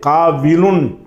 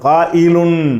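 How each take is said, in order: First: The middle consonant is a w sound. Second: The middle consonant is a glottal stop. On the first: The speaker calls it wrong. "காவிலுன் என்று சொல்லக்கூடாது" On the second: The speaker calls it right. "ஹம்சா வச்சு சொல்லணும்"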